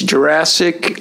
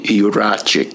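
First: The name is said with an 's' sound. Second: The name is said with a 'ch' sound. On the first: This is how English speakers say the name. "they don't say the ch in English language, so they say Jurassic" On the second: This is how the name is said in Hungary. "in Hungary they call me Juracic"

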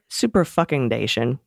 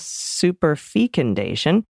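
First: The E in fecundation is short. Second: The E in fecundation is long. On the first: "as all the cool beans kids like to call it" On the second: "I've always pronounced it with a long E"

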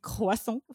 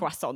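First: It is said with a French accent. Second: It is said with an English accent.

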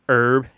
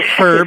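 First: The word starts with a vowel, no h. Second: The word starts with an audible h sound. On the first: This is the older form of the word. "So it was borrowed into British as herb and herbal" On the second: This is the newer form of the word. "noticed that there was an H in the word... started to pronounce it herb"

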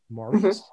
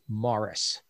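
First: The stress is on the second syllable. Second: The stress is on the first syllable. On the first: This is the French form of the name. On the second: This is how the actor's own name was said.

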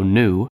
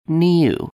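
First: There is no y sound before the vowel. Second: There is a y sound before the vowel. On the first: "like basically N-O-O" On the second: "like N-Y-O-U"

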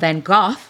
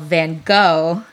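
First: The name is said as British speakers say it. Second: The name is said as Americans say it.

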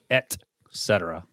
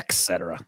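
First: The first word is said as 'et'. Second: The first word is said as 'ex'. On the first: The speaker calls it right. "Et cetera, yes" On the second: The speaker calls it wrong. "Not et cetera"

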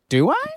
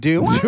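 First: The voice rises at the end. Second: The voice falls at the end. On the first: The speaker sounds like they are asking. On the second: The speaker sounds more powerful.

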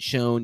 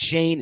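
First: The vowel sounds like the one in bone. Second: The vowel sounds like the one in rain. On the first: The speaker calls it wrong. "It's not Shone" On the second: The speaker calls it right. "It's Shane"

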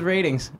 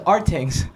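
First: The word begins with a plain 'r' sound. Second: The word begins with an 'ar' vowel sound. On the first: The speaker calls it right. "I didn't realize it was ratings" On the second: The speaker calls it wrong. "That's how I pronounced it"

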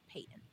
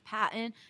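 First: The first syllable sounds like 'pay'. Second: The first syllable sounds like 'pat'. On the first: The speaker calls it right. "that is how you pronounce it" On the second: The speaker calls it wrong. "a lot of people have thought it's Patton"

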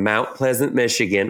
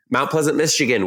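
First: It is said in a Southern US accent. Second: It is said in a plain, unaccented voice.

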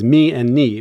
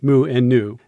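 First: The letter names end in an 'ee' vowel. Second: The letter names end in an 'oo' vowel. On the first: This is the Greek pronunciation. "some people were sticklers for the Greek pronunciation and saying it was mi and ni" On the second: This is the usual English pronunciation. "in English we tend to say mu and nu"

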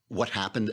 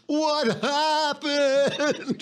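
First: It is said plainly, like a book title. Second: It is said in a bewildered, complaining tone.

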